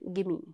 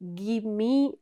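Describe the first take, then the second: First: The two words blend quickly into one unit. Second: The two words are said separately and fully.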